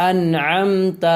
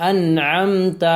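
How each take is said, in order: The two takes are said the same way.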